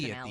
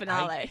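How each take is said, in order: First: It is said in a plain, ordinary way. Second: It is said with an exaggerated Italian flavor. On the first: It is the speaker's own everyday way of saying it. "I also say" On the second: It imitates a host's dramatic way of saying it. "That's how he says it"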